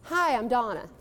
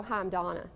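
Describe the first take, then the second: First: Open, self-assured hello at full voice; confident greeting. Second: Small, shrinking hello, a bit softer; timid greeting. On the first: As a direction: introduce yourself like you own the room. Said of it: "Isn't that a more powerful way to do it?". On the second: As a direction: introduce yourself as if taking up no space. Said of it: "you don't walk up to them and go". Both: Shown as a demonstration.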